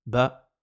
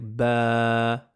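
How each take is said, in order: First: BA with a brief vowel; quick, unprolonged "Ba"; short vowel. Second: BA with a long held aaa; long, sustained "ba" on a level note; prolonged vowel. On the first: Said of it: "c'est un son bref". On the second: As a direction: stretch the vowel of "ba" right out. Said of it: "la prolongation". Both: Shown as a demonstration.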